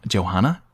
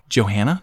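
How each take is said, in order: First: "Johanna" with a broad "ah", as in "father"; second pronunciation try. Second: "Johanna" with the A of "hat", rising; first pronunciation try. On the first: Host correcting a performer's name to "Johanna" with broad ah. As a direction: say "Johanna" as jo-HAH-na, lower. Trying two ways to say a name. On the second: Host trying a performer's name, unsure "Johanna" with short A. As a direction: say "Johanna" with a flat A as in "hand", questioning. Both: Real, not acted.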